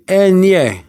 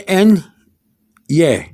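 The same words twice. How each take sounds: First: "N, yeah" run together as en-yeh; "N, yeah" in one smooth glide; blended ñ. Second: "N, yeah" as two separate pieces; wrong-way "N... yeah", not joined; unblended ñ. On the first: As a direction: join "N, yeah" with no gap. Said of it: "It blends in". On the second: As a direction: break "N, yeah" apart with a clear pause. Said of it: "You, you don't say". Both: Shown as a demonstration.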